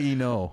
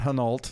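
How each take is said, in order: First: The initial H is silent. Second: The initial H is pronounced. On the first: The speaker calls it right. "You don't pronounce the H" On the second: The speaker calls it wrong. "Not Hinault"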